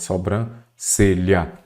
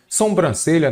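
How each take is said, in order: First: "sobrancelha" lento, com "so" oral, sem M; pronúncia correta de sobrancelha. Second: "Sobrancelha" com um M intruso, som de "sombran"; pronúncia errada de sobrancelha. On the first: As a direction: separe "sobrancelha" em "so-bran... celha". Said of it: "que é o correto". ("sobrancelha" articulado devagar, sem som de "sombra") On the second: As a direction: diga "Sobrancelha" errado, nasalizando o começo como em "sombra". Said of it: "nada de sombra". ("Sobrancelha" começando com "som", como erro comum) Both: Shown as a demonstration.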